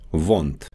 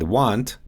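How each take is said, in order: First: It begins with a forward V sound. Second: It begins with an English W sound.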